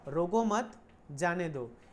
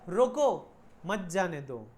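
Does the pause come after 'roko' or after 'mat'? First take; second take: after mat; after roko. First: The pause comes after 'mat'. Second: The pause comes after 'roko'.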